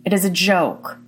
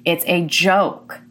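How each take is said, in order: First: "is" leaned on with a falling tune; stress on IS. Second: Said in the usual way. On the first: Shown as a demonstration. Restating to viewers that it is a joke, "is" stressed. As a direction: land hard on the word "is".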